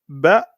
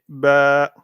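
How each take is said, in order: First: The vowel is short and clipped. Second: The vowel is drawn out and prolonged. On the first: The speaker calls it wrong. "on lira pas ba" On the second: The speaker calls it right. "mais ba, ba, comme un mouton presque"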